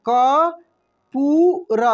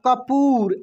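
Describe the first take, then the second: First: कपूर stretched very slowly, syllable by syllable; teacher sounds out कपूर slowly so pupils catch the ऊ; drawn-out spelling-out. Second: Said in the usual way. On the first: Shown as a demonstration. Teacher to pupils, spelling out the word very slowly. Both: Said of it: "ऐसे कपूर".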